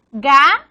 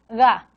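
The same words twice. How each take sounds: First: "ga" with a firm, loud stopped G; hard G. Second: "ga" with a softened G, air slipping through; soft G. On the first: Teacher showing the first allophone of G, hard G. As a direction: punch "ga", fully closing off the air. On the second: Teacher showing the weaker allophone of G, soft G. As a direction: say "ga" with a loose, unclosed G. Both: Shown as a demonstration. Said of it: "más suave".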